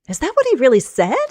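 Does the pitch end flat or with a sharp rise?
sharp rise. The pitch rises sharply at the end. "Sharp rise for strong emotions"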